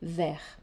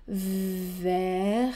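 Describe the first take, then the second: First: The sounds are linked without drawing out. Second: Each sound of the word is drawn out. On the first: "sans prolongement du phonème" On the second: "de ne plus faire"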